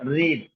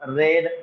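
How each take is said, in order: First: The vowel is a long ee sound. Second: The vowel is a short e sound. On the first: This is the past participle form. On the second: This is the past form.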